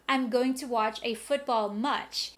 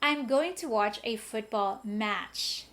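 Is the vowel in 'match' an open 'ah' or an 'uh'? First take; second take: uh; ah. First: The vowel in 'match' sounds like 'uh'. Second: The vowel in 'match' sounds like 'ah'. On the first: The speaker calls it wrong. "So you don't say" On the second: The speaker calls it right. "You say"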